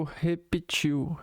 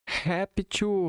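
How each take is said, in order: First: Repetiu as he-pe-TCHIU, stress on the last syllable; teacher contrasting repetiu with réptil; repetiu, three syllables. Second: Réptil as HEP-tchu, stress on the first syllable, falling; teacher contrasting réptil with repetiu; réptil, two syllables. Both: Shown as a demonstration.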